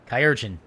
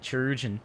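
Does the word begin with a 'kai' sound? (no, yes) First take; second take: yes; no. First: The first syllable sounds like 'kai'. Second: The first syllable does not sound like 'kai'. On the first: "chirurgeon is good. It's like like Kai, like the Greek" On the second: "I call it chirurgeon"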